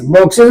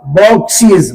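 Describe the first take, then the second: First: Short "ez" ending on बॉक्सेस; wrong plural pronunciation. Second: बॉक्सेस said "bok-seez"; long ee in the last syllable of बॉक्सेस; correct plural pronunciation. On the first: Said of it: "बॉक्सेस नहीं". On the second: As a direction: end बॉक्सेस in a long "eez". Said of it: "उच्चारण क्या होगा?". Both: Shown as a demonstration.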